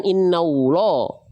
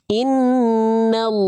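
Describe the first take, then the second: First: "innallah" ending in an over-rounded "ulo" sound; wrong pouted lam. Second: "Innallah" very slow, heavy llaa, lips unpouted; correct thick lam. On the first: Teacher shows the mistake to avoid, pouted lam. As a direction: say "innallah" with lips pushed out into O. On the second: Teacher models correct way for students, unpouted thick lam. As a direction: hold "Innallah" long, tongue root raised for thick lam. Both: Shown as a demonstration. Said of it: "bukan innallah".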